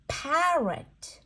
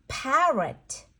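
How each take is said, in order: Both takes have the same delivery.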